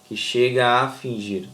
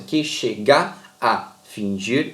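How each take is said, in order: First: The touching vowels run together into one syllable. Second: The touching vowels are said apart, syllable by syllable. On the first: The speaker calls it right. "a gente fala assim, ... tudo junto" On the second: The speaker calls it wrong. "A gente não fala assim"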